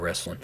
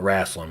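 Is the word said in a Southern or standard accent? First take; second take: standard; Southern. First: It is said in a standard accent. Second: It is said in a Southern accent.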